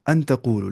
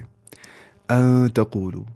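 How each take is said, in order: First: The n is pronounced clearly before the t. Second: The n is hidden into a nasal sound. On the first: "अन तकूलू है ना" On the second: "तो यहाँ पे इख्फा करने हैं हमें। हम पढ़ेंगे ऐसे"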